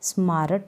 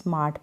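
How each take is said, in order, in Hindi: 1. R की आवाज़ साफ़ बोली जाती है। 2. R की आवाज़ चुप रहती है। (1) "स्मारट ना पढ़े" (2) "इसमें आर का साउंड बिल्कुल नहीं आ रहा है साइलेंट है"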